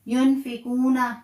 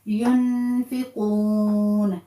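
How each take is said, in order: First: The word ends with a short vowel after n. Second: The word ends on the n consonant. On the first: The reciter keeps reading without stopping. "यहां ना है" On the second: The reciter stops at the end of the verse. "नून का जबर खत्म करके उसको साकिन कर देंगे"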